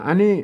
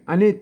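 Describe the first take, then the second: The two takes are said the same way.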